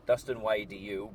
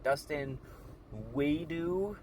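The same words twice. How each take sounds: First: "Dustin Y D U" with the letters Y D U spelled one by one; spelled out correctly. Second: "Dustin Wadu" with "Wadu" said as one strange word, higher; mispronounced name. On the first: Shown as a demonstration. Correcting the caller's misreading, "Y D U" spelled clearly. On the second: Retold or imitated. Caller misreading his channel name, "Wadu" said strangely. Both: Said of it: "she didn't pronounce it right".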